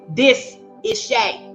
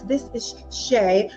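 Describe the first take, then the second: First: It is said in a Southern American accent. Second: It is said in a neutral, polished accent. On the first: The speaker shows where she comes from. The speaker calls it right. "you're going to get this Shay" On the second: The speaker hides where she comes from. The speaker calls it wrong. "I don't code switch anymore"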